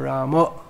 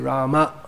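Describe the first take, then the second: First: The final vowel is an 'o' sound. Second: The final vowel is an open 'a' sound. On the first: "I'd say Ramo, just by association" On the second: "whether you say Rama or Ramo"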